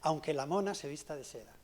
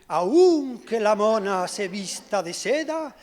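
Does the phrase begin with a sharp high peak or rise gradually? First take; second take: gradual rise; sharp peak. First: The pitch rises gradually across the phrase. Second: The pitch starts on a sharp high peak. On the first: The speaker calls it right. "Yo lo he pronunciado bien" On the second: The speaker calls it wrong. "Pues parece un Miura"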